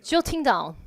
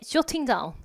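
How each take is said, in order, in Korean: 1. 영국 억양이에요, 둥근 'o' 모음과 또렷한 t. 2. 영국 억양이에요, 둥근 'o' 모음과 또렷한 t.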